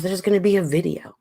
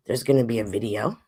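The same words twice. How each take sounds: First: Said in the usual way. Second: "there's gonna be a video" said again lower, with weight on "gonna"; a lower, emphatic echo of "there's gonna be a video"; lower repeat. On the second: Shown as a demonstration. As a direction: drop the pitch and lean on "gonna".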